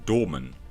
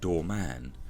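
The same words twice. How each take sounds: First: It is said together as one word. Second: It is split into two separate words. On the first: "Reading it, I'd say that was the uh" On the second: "some people would separate it"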